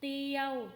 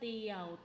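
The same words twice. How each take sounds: First: The syllable has a mid level tone. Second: The syllable has a low tone. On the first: "สามัญ" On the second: "เอก"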